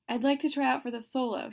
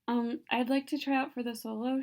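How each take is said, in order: First: It is said clearly and louder. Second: It is mumbled quietly.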